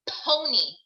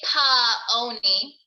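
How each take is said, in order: First: No extra vowel follows the p sound. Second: An extra vowel follows the p sound. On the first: The speaker calls it right. "We say pony" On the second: The speaker calls it wrong. "we don't say pa oni"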